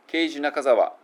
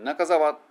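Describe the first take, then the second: First: "ケイジ・ナカザワ" flat, even Japanese syllables; katakana name. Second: "ナカザワ" English way, weak カ and long ザ; English name. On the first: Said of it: "だと英語にならない". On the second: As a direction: stretch the ザ in "ナカザワ". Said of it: "英語になると". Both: Shown as a demonstration.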